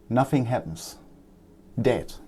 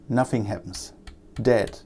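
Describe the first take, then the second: No difference in how they are said.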